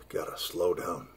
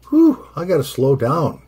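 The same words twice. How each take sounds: First: Worn-out murmur between hiccups; hiccuping. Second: Puffing out "Whew" before the words; winded exhale. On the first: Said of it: "hiccups, which I have right now". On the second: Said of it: "feel the nicotine pumping". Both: Real, not acted.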